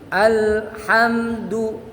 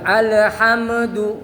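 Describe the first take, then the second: First: The L is held clearly without bouncing. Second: The L is released with a bouncing echo. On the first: The speaker calls it right. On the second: The speaker calls it wrong.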